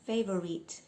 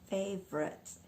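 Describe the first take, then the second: First: Every letter of the word is sounded out. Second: The v sound runs straight into the r. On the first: The speaker calls it wrong. "we're not pronouncing every letter" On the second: The speaker calls it right. "the V just literally blends into the R"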